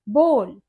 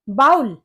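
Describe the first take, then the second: First: The vowel sounds like the one in 'hole'. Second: The vowel sounds like the one in 'owl'. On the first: The speaker calls it right. "इसे हम बोल pronounce करते हैं" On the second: The speaker calls it wrong. "लेकिन ये बाउल नहीं होता"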